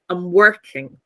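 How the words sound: The main stress falls on 'work'. The speaker calls it right. "I say I'm working"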